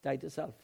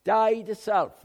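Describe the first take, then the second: First: Said in the usual way. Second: High, loud preaching cry of the phrase; forceful shout. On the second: Real, not acted. Preacher hammers the point home to the congregation, shouting. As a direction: drive it home at full voice.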